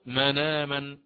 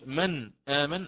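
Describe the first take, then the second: First: The nasal links straight into the vowel. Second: The glottal stop after the nasal is kept. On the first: "قلت مناما هكذا" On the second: "عوض أن أقول من آمن مثل حفص"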